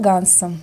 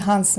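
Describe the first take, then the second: First: The name begins with a hard G sound. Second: The name begins with a breathy H sound.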